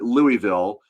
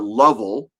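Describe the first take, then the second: First: The name is said the way a local says it. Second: The name is squeezed into a short, reduced form. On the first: The speaker lives in the city. "If you're a local, you probably call it" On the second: The speaker has lived in the city a long time. "If you've been there a really long time, you probably call it"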